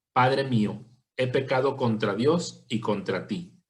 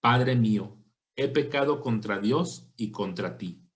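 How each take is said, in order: No difference in how they are said.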